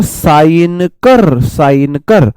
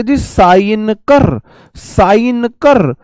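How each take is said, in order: First: Slow, firm order to sign; boss की तरह धीमा हुक्म; commanding demo. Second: Bossy order. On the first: Shown as a demonstration. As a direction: drawl the sign command like a boss. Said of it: "ऐसे देखो". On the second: Retold or imitated. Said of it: "तो साइनोक्योर को आप बोलोगे".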